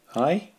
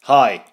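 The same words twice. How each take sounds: First: The greeting is said weakly. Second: The greeting is said very strongly.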